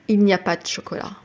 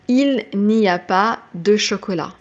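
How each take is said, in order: First: The word de is swallowed. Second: The word de is clearly pronounced. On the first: "A French person is going to say, ... We swallow that de"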